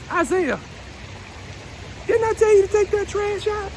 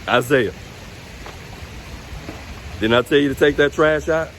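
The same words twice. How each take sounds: First: It is said imitating mama's voice. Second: It is said in a plain, ordinary voice.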